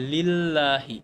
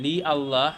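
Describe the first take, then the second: First: লিল্লাহি run together with no আ sound; teacher gives লিল্লাহি fused, the a dropped; joined lillahi. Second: লি আল্লাহ with the আ sounded apart, unjoined; teacher says লি আল্লাহ with the a kept, as the wrong way; separate li and Allah. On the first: Teacher shows students the joined form, falling at the end. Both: Shown as a demonstration. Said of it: "আমি আ তো উচ্চারণ করবো না".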